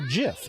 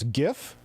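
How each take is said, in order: First: It begins with a soft J sound. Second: It begins with a hard G sound. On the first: "J I F" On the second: "you spell it G I F"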